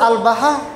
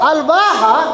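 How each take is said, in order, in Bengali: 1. 'b'-এর পরের স্বরটি হ্রস্ব। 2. 'b'-এর পরের স্বরটি দীর্ঘ। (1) "আমি একটা আলিফ কম বলেছি" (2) "বা আলিফ হা"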